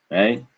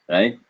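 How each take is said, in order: The two takes are said the same way.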